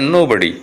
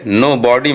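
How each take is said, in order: First: The word is said as 'no buddy'. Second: The word is said as 'no body'. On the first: The speaker calls it right. "ये होता है नो बडी" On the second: The speaker calls it wrong. "नो बॉडी मत पढ़िएगा"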